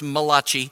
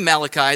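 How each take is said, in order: First: The name is said with an Italian-style pronunciation. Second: The name is said in plain English pronunciation. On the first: "those of you of Italian persuasion would pronounce this Malachi" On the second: "I say Malachi"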